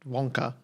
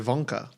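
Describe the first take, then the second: First: The word begins with a W sound. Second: The word begins with a V sound.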